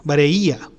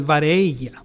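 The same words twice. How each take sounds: First: VAREILLA with the i as its own vowel; corrected pronunciation. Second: VAREILLA with a y-like glide in the ending; mispronounced Greek term. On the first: Teacher correcting the grave accent's name, "vareilla" with separate i. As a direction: say "vareilla" as bah-reh-EE-ah. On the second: Teacher misnaming the grave accent, mispronounced "vareilla". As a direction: say "vareilla" as bah-RAY-yah, a slip. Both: Real, not acted. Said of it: "vareilla, perdón".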